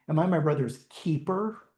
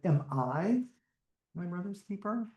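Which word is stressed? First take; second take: keeper; I. First: The stress is on the word keeper. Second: The stress is on the word I.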